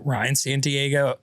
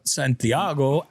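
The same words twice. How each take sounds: First: Said in the usual way. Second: Santiago drawn out slowly, T softened to a th; playful Spanish pronunciation. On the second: Shown as a demonstration. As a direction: say Santiago slowly as "san-thee-AH-go".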